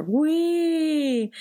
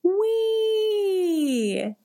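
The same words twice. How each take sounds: First: Higher but lazy, unenthused whee; bored teenager wee. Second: Long high roller-coaster whoop; gleeful wee. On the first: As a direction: whee like a bored teen on a ride. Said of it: "like a bored teenager riding a roller coaster". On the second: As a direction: squeal like on a ride, much higher. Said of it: "and I go". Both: Retold or imitated.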